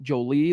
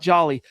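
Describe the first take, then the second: First: The name is said like 'jo-lee'. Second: The name is said like the word 'jolly'. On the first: The speaker calls it right. "It's Jolie" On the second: The speaker calls it wrong. "let's remember it's not Jolly"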